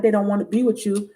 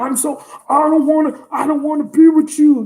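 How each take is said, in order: First: Said in the usual way. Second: Higher-pitched mocking imitation; exaggerated mock protest; mock pretense. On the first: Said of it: "No, it's not even that". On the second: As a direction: mimic someone putting on an act. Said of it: "they be trying to pretend".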